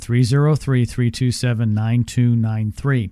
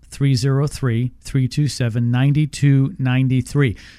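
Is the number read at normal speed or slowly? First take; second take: normal; slowly. First: It is read at a normal pace. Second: It is read more slowly.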